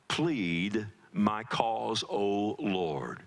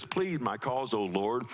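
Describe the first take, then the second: First: Very slow, dwelling on Plead; slow solemn reading. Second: Said in the usual way. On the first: Shown as a demonstration. Pastor reading David's plea aloud, slow and solemn. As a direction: draw out "Plead my cause" word by word. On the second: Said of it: "Plead my cause, O Lord." (first take)".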